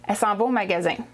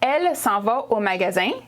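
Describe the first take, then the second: First: The first word is cut to one vowel. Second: The first word is said in full.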